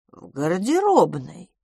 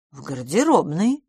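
First: Slow, drawn-out sentimental answer. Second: Mildly dreamy answer. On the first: Miss Pettigrew tells where Edith is, sentimental. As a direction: linger on the words sentimentally. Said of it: "сентиментально сказала мисс Петтигрю". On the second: Miss Pettigrew tells where Tony is, dreamily. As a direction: answer with a touch of reverie. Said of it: "мечтательно сказала мисс Петтигрю". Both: A narrator's reading.

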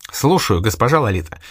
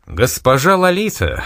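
First: Said in the usual way. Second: Warm eager exclamation, higher and slow; eager greeting to the club owner; exclaiming. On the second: A narrator's reading. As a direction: greet her with delight. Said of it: "воскликнул Богомолов".

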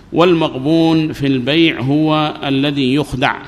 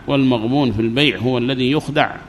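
First: والمغبون في البيع هو الذي يخدع read slowly, word by word; slow, clear dictation pace. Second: Said in the usual way. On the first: Shown as a demonstration. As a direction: spell it out slowly for the class. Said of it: "slow dictation take". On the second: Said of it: "normal take".

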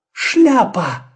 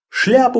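First: High bright cry of discovery; excited exclamation. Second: Said in the usual way. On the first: Acted. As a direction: blurt it out with delight. Sudden idea exclaimed. (радостный возглас)

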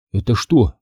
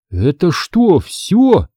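First: Said in the usual way. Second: A startled, rising little gasp of a question; a boy taken aback at how small the town is; gasping surprise. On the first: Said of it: "я так вопил?". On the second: Acted. Boy realizing the town is already over, gasping in surprise. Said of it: "ахнул я".

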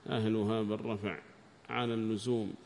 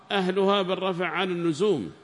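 First: Said in the usual way. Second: Formal reading. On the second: Acted. Student reads the rule aloud to the sheikh, raised. Read aloud, then repeated.

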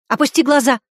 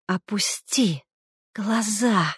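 First: Loud, higher barked order; shouted command. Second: Hissed, voiceless whisper. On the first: Woman shouting at Smirnov to look away, loud. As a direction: shout it at him. Same words shouted earlier. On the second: Madwoman hissing at her brother across the table, whispered. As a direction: hiss the command through the teeth. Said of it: "прошипела она". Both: A narrator's reading.

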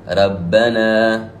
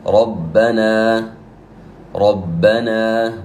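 First: Slow "ربنا" with a thin, light ra; "ربنا" with the ra thinned, as a mistake; wrong light ra. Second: Slow "ربنا" with a full, heavy ra; very slow "ربنا" with an emphatic ra. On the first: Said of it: "هذا خطأ". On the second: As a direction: draw out "ربنا" with the ra thickened. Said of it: "مثال ذلك". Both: Shown as a demonstration.

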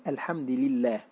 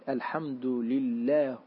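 First: الحمدِ لِله, the dal taking the lam's i; kasra on both. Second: الحمدُ لُله, the lam following the dal's u; damma on both. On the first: Teacher demonstrates al-Hasan's reading with kasra. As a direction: say الحمد لله as al-hamdi lillah, with i on the dal. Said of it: "بكسر الدال". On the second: Teacher demonstrates Ibn Abi Abla's reading, slowly. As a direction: say الحمد لله as al-hamdu lullah, with u on the dal and on the lam. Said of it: "بضم الدال واللام". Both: Shown as a demonstration.

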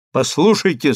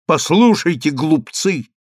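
First: Even, composed call; calm address. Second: Firmer, scornful address. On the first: Daniil turns to the Greeks, calm address. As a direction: get their attention calmly. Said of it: "сказал спокойно Даниил". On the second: Same word, now scornful to opponents. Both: A narrator's reading.

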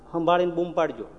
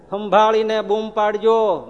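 First: Said in the usual way. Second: સંભાળીને stretched out slow and louder, a warning; slow, louder, drawn-out caution; સંભાળીને બૂમ પાડજો said slowly and loudly as a threat. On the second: Shown as a demonstration.

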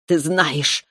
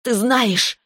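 First: Venomous growl. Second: High, venomous snarl. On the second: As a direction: spit "знаешь" out high and venomous. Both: A narrator's reading. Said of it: "прорычала Таис с ядом в голосе".

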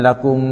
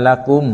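First: "ละกุม" with the final m drawn out in a hum; sung, linger wrongly on the m of "ละกุม"; wrong humming lakum. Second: "ละกุม" with a clear m closed without a long hum; correct clear lakum. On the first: Sung, teacher showing what to avoid, over-held m. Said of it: "อย่าอ่านว่าละกุม". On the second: Teacher showing the right reading, clear m. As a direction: close the lips cleanly at the end of "ละกุม". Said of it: "อ่านว่าละกุม". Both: Shown as a demonstration.

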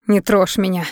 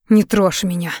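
First: Restrained, distressed cry; cried out. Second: Hissed. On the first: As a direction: push him away with a pained cry. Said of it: "закричала, заикаясь". (сдавленный крик отчаяния) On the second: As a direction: hiss it to push him away. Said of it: "прошипела девушка". (сердито шипя) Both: A narrator's reading.

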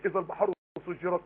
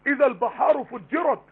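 First: سجرت said low and soft as the rejected variant; hypothetical wording, quiet. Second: فجرت said slowly and raised, as the verse's real word; teacher reads the verse with فجرت high and drawn out; stress on فجرت. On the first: Teacher tests an alternative wording, lower and softer. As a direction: drop the voice low on سجرت as a what-if. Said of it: "لو كان المقصود انها بقت نار بس كانت قال سجرت". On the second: Teacher quotes the true verse to her class, slow and raised. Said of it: "انما فجرت اضافت معنى". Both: Shown as a demonstration.

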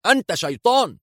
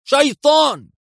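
First: High, frightened accusation; panicked, pitch up on شيطان; nervous cry. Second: شيطان screamed higher and louder; panicked shriek. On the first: (صيحة مذعورة مرتفعة) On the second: (صرخة ذعر أعلى وأقوى بكلمة شيطان) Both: A narrator's reading. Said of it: "ثم هتف في عصبية".

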